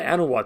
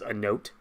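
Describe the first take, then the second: First: The name is said like 'Anawatt', with more syllables. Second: The name is said like the words 'a note'. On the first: The speaker calls it right. "they like like oh we're going to the Anawatt system" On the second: The speaker calls it wrong. "I always assumed that the pronunciation of that planet was a note"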